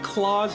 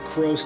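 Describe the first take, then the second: First: The name is said with an l, like 'Claus'. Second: The name is said with an r, like 'crows'. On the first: "I think Claus makes a lot more sense" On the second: "you can also pronounce it Crows too"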